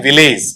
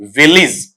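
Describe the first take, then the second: First: विलेज with a long "ay" ending; full e vowel in the second syllable of विलेज; common mispronunciation. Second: विलेज with short i in both syllables; light, brief ending on विलेज; correct pronunciation. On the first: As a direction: say विलेज as "vi-LAYZ". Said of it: "हम generally पढ़ते हैं विलेज". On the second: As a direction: say विलेज as "VIL-iz". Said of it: "इसका शुद्ध उच्चारण वहां पर रहेगा". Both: Shown as a demonstration.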